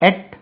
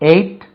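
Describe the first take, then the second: First: The vowel is short, like in 'bet'. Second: The vowel is long, like in 'eight'. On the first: "எட்டு என்று ஒரு உச்சரிப்பு இருக்கு" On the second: "எயிட் இப்படி ஒன்று இருக்கு"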